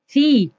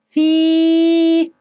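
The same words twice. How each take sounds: First: The i vowel is short. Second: The i vowel is long. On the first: "حركة الكسر صوت قصير" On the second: "حركة الكسر بصوت طويل"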